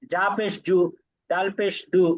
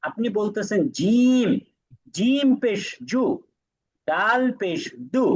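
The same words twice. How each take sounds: First: জা পেশ জু with the letter name clipped to জা; wrong reading. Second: Slow, clear জিম পেশ জু with the full letter name জিম; correct reading. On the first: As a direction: show the mistake at a normal pace. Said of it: "তাহলে তো আর হলো না". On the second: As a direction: spell it out carefully, naming জিম and ডাল in full. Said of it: "হরফের নামটা সঠিকভাবে নিচ্ছেন". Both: Shown as a demonstration.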